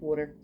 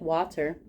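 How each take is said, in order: First: Water is said with a Philadelphia accent. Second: Water is said with a general American accent.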